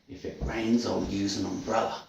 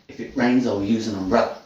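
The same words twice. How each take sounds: First: The sentence is spoken at a slower pace. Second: The sentence is spoken at a faster pace.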